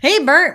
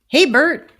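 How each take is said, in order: First: It is said in a put-on puppet character voice. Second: It is said in the speaker's ordinary voice.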